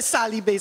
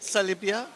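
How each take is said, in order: First: The name ends on a 'bee' sound. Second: The name ends with an extra 'ah' syllable.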